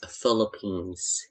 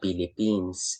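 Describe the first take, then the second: First: The word begins with an F sound. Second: The word begins with a P sound. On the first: The speaker calls it right. "is pronounced as Philippines" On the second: The speaker calls it wrong. "hindi siya Philippines"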